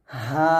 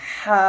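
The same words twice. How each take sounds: First: হা let out softly with no pressure; right soft ha. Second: হা pushed with pressure in the throat; wrong pressed ha. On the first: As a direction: show the correct relaxed হা. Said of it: "এভাবে বলবেন". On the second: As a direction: show the pressed হা to avoid. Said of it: "এটা বলবেন না". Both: Shown as a demonstration.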